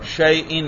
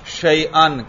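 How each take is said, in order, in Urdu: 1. آخری مصوتہ i ہے، جیسے shay'in۔ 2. آخری مصوتہ a ہے، جیسے shay'an۔ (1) "میں کیا پڑھ رہا ہوں؟ زیر" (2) "کیا پڑھ رہا ہوں؟ زبر"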